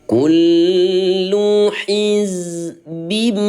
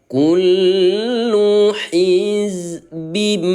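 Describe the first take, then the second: The two takes are said the same way.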